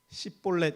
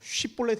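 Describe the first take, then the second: First: The word begins with a plain 's' sound. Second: The word begins with a 'sh' sound. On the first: The speaker calls it wrong. "시볼렛 이렇게 해가지고" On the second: The speaker calls it right. "쉬볼렛 해야 되는데"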